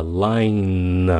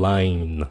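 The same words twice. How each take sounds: First: "line" drawn out onto a held N; emphasised final N. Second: "line" with only a half-formed N; light final N. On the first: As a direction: hold the N at the end of "line". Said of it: "các bạn nhớ là line". (kéo mạnh âm N cuối chữ "line") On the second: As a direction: let the N of "line" fade unfinished. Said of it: "đừng có n mạnh quá khi các bạn nói nhanh". (nói "line" với âm N nhẹ ở cuối) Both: Shown as a demonstration.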